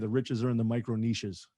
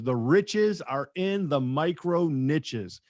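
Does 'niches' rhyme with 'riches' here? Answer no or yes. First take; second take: no; yes. First: 'Niches' is said not rhyming with 'riches'. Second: 'Niches' is said to rhyme with 'riches'. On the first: The speaker calls it wrong. "Doesn't make any sense to say" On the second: The speaker calls it right. "it doesn't rhyme with rich. It rhymes with niche rhymes with rich. So that's what we need to, to use"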